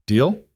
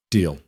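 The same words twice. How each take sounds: First: Deal? rising at the end; questioning deal. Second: Deal. falling, final; settled deal. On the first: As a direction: offer Deal? with a lift. Offering a deal, asking. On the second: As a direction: agree with Deal. dropping down. Accepting the deal. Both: A narrator's reading.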